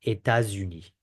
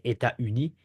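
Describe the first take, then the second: First: États-Unis said éta-zuni with Z; French liaison with Z. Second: États-Unis said éta-uni, no Z; French without liaison; no liaison, wrong. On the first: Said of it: "We don't say États-Unis". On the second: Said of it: "We don't say". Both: Shown as a demonstration.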